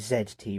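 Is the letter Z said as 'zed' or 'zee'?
zed. The letter Z is pronounced 'zed'. It follows the speaker's own English usage. The speaker calls it right. "should say Z T really, shouldn't I? Because I'm English"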